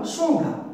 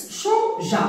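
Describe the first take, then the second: First: "changa" with a hard G before the A; misread without E. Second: Said in the usual way. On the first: Shown as a demonstration. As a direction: say "changa", G as in gare, no ZH sound. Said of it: "Et ça, c'est faux". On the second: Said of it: "Et ça se prononce".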